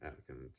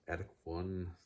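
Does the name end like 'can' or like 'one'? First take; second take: can; one. First: The name ends with a 'kan' sound. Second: The name ends with the word 'one'. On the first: "I pronounce Attican just simply out of my own intuition" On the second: "Attic one might be an option of how to pronounce it"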